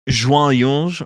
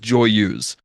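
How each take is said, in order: First: The name is said with French-style sounds. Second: The name is said with English-style sounds. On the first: This is how the word is said in its own language. The speaker calls it right. "that is a French word, and it's more like joyeuse" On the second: This is how the name is officially said. The speaker calls it wrong. "Her name is pronounced as Joyeuse"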